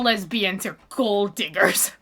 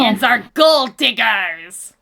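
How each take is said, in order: First: It is said in a plain, ordinary accent. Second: It is said in a put-on pirate accent.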